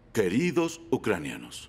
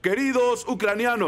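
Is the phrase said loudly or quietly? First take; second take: quietly; loudly. First: It is mumbled in a quiet voice. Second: It is shouted in a loud voice. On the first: "no debería murmurar" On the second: "Pero no debe gritar"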